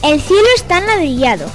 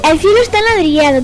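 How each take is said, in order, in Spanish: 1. Se dice a un ritmo normal, más lento. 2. Se dice a un ritmo más rápido.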